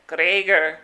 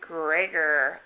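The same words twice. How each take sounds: First: It is said in a Scottish accent. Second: It is said in the speaker's normal accent.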